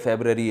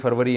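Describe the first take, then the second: First: It is said as febrari, the English form. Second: It is said as farvari, the Urdu form. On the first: "लेकिन English में" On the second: "Urdu में जनवरी फरवरी है ना"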